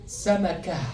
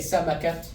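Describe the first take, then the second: First: The word ends on a vowel, no t. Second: The word ends with a final t sound. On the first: The speaker calls it right. "It's going to be samaka" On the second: The speaker calls it wrong. "you're not going to say samakat"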